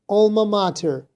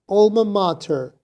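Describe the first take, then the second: First: It is said with an American accent. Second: The same.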